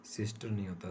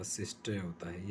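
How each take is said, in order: First: सिस्टर with the final r sounded; wrong pronunciation. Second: सिस्टर as sistuh, r dropped; non-rhotic pronunciation. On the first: Teacher demonstrating the mistaken form, r pronounced. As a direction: say सिस्टर ending on a clear r. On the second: Teacher giving the correct form, r silent. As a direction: drop the r at the end of सिस्टर. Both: Shown as a demonstration. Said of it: "आर को pronounce नहीं किया जाता".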